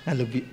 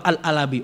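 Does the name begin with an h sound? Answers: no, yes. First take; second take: yes; no. First: The name is said with an h sound. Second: The name is said without an h sound. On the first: The speaker calls it right. "pakai ha bujur lah" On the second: The speaker calls it wrong. "Coba Al-Alabi, orang Alabi yo beliau"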